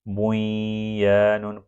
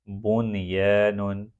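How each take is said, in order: First: The n merges nasally into the following y. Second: The n is pronounced clearly before the y. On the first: The speaker calls it wrong. "बुई या नुन पढ़ना गलत है" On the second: The speaker calls it right. "बल्कि इसको पढ़ा जाता है बुन ये नुन"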